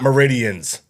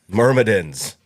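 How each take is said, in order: First: The name is said as 'meridians', without an M. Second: The name is said as 'myrmidons', with an M. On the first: The speaker calls it wrong. "Not meridians" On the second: The speaker calls it right.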